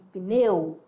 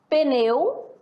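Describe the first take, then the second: First: The P and N are said together. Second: A vowel is inserted between P and N. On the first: The speaker calls it right. "na segunda, nós temos a escrita correta" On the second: The speaker calls it wrong. "Na primeira, a incorreta"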